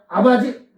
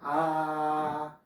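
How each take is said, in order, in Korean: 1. 한 번에 빨리 말해요. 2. 한 음절씩 천천히 늘여서 말해요. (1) "빨리 해서 아버지 이랬단 말이야" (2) "천천히 하라는 게"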